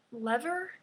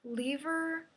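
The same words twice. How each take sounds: First: "lever" said LEV-er; short-E pronunciation. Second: "lever" said LEE-ver; long-E pronunciation. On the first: Quoting a podcaster's two pronunciations, "lever" as LEV-er. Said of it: "put those two pronunciations". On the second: Quoting a podcaster's two pronunciations, "lever" as LEE-ver. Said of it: "pronounced the word". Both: Shown as a demonstration.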